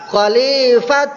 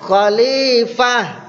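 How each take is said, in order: First: The word ends with a t sound. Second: The word ends with an h sound. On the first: The speaker calls it wrong. "ke bunyi to" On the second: The speaker calls it right. "Bunyi ho deh"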